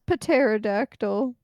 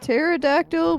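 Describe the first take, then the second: First: The word starts with a sounded p. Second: The word starts with a silent p. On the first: The speaker calls it wrong. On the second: The speaker calls it right.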